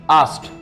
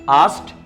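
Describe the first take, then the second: No difference in how they are said.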